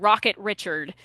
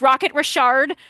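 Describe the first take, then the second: First: Richard is pronounced the English way. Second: Richard is pronounced the French way. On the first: The speaker calls it wrong. "Nothing nothing gets me more than uh, someone saying" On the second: The speaker calls it right. "It's Rocket Richard for anyone uh, not in the know"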